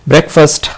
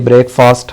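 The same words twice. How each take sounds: First: It is said the standard English way. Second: It is said the common local way. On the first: The speaker calls it right. "That is breakfast" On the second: The speaker calls it wrong. "but mostly breakfast हम लोग बोलते हैं"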